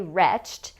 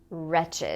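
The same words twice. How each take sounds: First: The ending is a plain t sound. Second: The ending is a separate extra syllable. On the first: It is the past tense of a different verb. The speaker calls it wrong. "we don't say wretched. That actually is a different word" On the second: It is the adjective. The speaker calls it right. "it's pronounced wretched"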